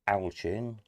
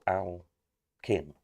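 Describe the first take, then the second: First: The first syllable sounds like 'Al', then 'chin'. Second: The first syllable sounds like 'Al', then 'kin'. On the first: "or Al, as in short for Alan" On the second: "or kin?"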